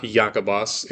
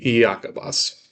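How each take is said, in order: First: Iacobos said the wrong way, as the teacher's counterexample; wrong reading of Iacobos. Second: Iacobos said the technically correct way, ah-ko-bos; correct reading of Iacobos. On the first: Teacher demonstrating the wrong Iacobos pronunciation. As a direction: say "Iacobos" the way you shouldn't. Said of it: "it's not Iacobos". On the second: Teacher demonstrating the technically correct Iacobos. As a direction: give "Iacobos" the grammar-book pronunciation. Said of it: "it would be Iacobos". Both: Shown as a demonstration.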